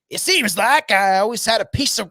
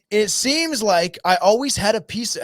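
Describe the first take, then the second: First: It is said in a put-on character voice. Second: It is said in the speaker's normal voice.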